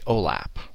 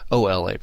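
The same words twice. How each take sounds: First: It is run together as one word. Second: It is said as separate letters, broken apart. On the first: The speaker calls it right. "we just kind of run it together" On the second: The speaker calls it wrong. "you don't say OLAP"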